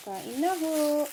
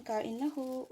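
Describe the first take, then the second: First: Louder, higher invitation to eat; calling out. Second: Said in the usual way. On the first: Real, not acted. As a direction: call out to the viewers. Calls viewers to eat, louder. (masiglang pag-aya na kumain)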